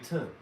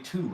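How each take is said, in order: First: The vowel is a reduced 'uh' sound. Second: The vowel is a full 'oo' sound. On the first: "I say to. ... I say T A" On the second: "I don't say to"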